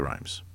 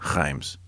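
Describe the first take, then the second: First: The name is pronounced in an English style. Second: The name is pronounced in a French style. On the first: This is how most people commonly say it. The speaker calls it wrong. "but most just say" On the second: This is the correct local pronunciation. The speaker calls it right. "The proper way to say Reims is"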